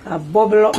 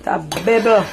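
First: Said in the usual way. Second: "bubble" said as "bebble"; old-time Jamaican "bebble" for "bubble"; granny's pronunciation. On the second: Retold or imitated. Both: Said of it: "Granny used to say bubble".

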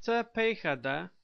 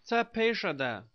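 First: Tepejada with a hard k sound for the j; Tepejada, k-like consonant before the final -da; first pronunciation. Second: Tepejada with a sh sound for the j; alternative pronunciation. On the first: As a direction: say Tepejada as te-pay-kha-da, not -sha-da. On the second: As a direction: say tepejada as ta-pay-sha-da. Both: Shown as a demonstration. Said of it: "also pronounced".

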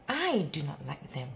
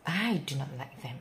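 Both takes have the same delivery.

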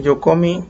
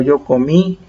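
First: "comí" said as CÓmi, stress on the first syllable; misplaced stress on CO. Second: "comí" stressed on its last syllable; stress on final I. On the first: Teacher showing what a missing accent does, "comí" stressed as CÓmi. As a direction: shift the accent of "comí" back onto CO. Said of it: "porque si no va a decir". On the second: Teacher showing students where the accent goes, "comí" stressed on final I. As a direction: put the weight on the final I of "comí". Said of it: "Acento en la I". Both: Shown as a demonstration.

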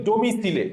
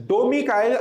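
First: ডোমিসিলে as "domi-si-le", final e voiced; spelling pronunciation. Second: Said in the usual way. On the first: Shown as a demonstration. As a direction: say ডোমিসিলে exactly as it is spelt. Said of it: "আমি এভাবে বলি". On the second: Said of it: "আসলে আমি এভাবে বলি".

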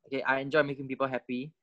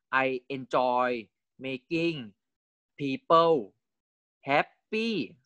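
First: Said in the usual way. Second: Slow rising read. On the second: Shown as a demonstration.

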